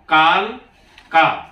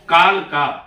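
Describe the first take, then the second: First: It is said as two separate words. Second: It is said as one joined word. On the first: It means 'of death'. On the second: It is the name of the town.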